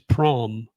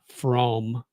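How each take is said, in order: First: The word begins with a P sound. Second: The word begins with an F sound. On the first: The speaker calls it right. "The H is silent, so it's the P" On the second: The speaker calls it wrong. "they pronounce the ph as an F"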